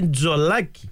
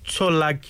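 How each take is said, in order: First: The name begins with a voiced 'dz' sound. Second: The name begins with a voiceless 'ts' sound. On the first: The speaker calls it right. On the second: The speaker calls it wrong.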